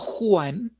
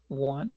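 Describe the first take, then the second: First: It is said like the Spanish name Juan. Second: It is said as the English word one. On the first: The speaker calls it wrong. "no Juan" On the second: The speaker calls it right. "but one"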